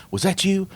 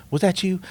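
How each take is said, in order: Both takes have the same delivery.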